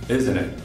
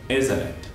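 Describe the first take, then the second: First: The T in isn't is left silent. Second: The T in isn't is left silent.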